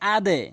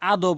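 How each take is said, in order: First: The final bounce sounds like an e vowel. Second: The final bounce sounds like an o vowel. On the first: The speaker calls it right. "এখানে বলতে হবে আদে" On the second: The speaker calls it wrong. "অধিকাংশ লোক আদো বলি ... এগুলো সঠিক উচ্চারণ নয়"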